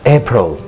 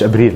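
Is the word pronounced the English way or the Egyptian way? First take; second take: English; Egyptian. First: It is pronounced with English sounds. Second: It is pronounced with Egyptian Arabic sounds. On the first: The speaker calls it right. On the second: The speaker calls it wrong.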